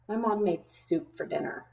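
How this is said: The voice sounds angry and annoyed. The person is displeased about the soup. "If I was angry about it"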